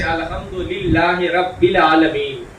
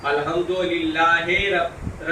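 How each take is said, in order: First: Slow, careful Arabic recitation with رب sounded rabbi, clear short i; رب said rabbil with a pure i vowel; correct recitation. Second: رب drawn out as rabbe with an e vowel, very slow and soft; رب said rabbe, the Urdu e sound; wrong vowel demo. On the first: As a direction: recite رب العالمین properly as rabbil. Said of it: "مجہول اور معروف عرب میں ایک اصطلاح ہے". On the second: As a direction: show the mistaken e in رب. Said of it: "اس کو مطلب ہی اور ہے". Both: Shown as a demonstration.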